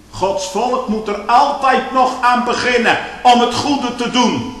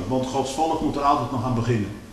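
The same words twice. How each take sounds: First: "Gods volk moet er altijd nog aan beginnen" said higher and louder; preached out loud. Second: Said in the usual way. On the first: Shown as a demonstration. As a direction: call it out to the church. Repeated phrase, then preached loudly. ("Gods volk moet er altijd nog aan beginnen" luid en hoog uitgeroepen)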